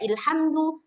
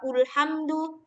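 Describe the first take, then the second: First: The word begins with the vowel i. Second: The word begins with the vowel u. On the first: "Nggak dibaca ilhamdu" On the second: "nggak dibaca ulhamdu"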